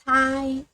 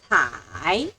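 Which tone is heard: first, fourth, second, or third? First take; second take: first; third. First: The pitch stays high and level. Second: The pitch dips low, then rises.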